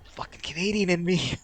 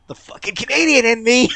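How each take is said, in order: First: Higher, held-in exasperation; restrained, raised-pitch exasperation; exasperated grumble. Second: Loud, high cry of exasperation; high, loud self-directed cursing; exasperated outburst. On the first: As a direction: curse your own nature, still holding it in. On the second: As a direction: let it burst out at full volume. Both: Real, not acted. Exasperated at own Canadian urge.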